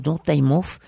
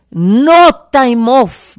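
First: Said in the usual way. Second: Booming slow shout, much higher and louder; God shouting. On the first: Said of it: "dije yo". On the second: Retold or imitated. The Lord shouting at her in the bedroom, a slow booming shout. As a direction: thunder it out as the Lord commanding. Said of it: "me gritó, pero recio el Señor".

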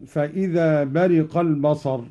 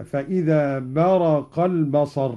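First: برق said "bariqa", i after the r; kasra on the ra. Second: برق said "baraqa", a after the r; slow recitation, open the ra of برق to "ra"; fatha on the ra. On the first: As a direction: turn the ra of برق to "ri". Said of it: "قرأ قالون بفتح الراء". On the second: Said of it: "بفتح الراء هكذا". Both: Shown as a demonstration.

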